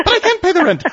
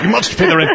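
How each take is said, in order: First: High, wailing damsel voice; damsel in distress. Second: A touch higher, hammed-up villain; sneering panto villain. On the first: Retold or imitated. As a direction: squeal it like a helpless heroine. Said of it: "it's an old melodrama". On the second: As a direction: ham up a mustache-twirling villain. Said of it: "put it over your mouth like a mustache and go".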